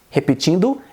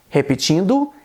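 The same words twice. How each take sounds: No difference in how they are said.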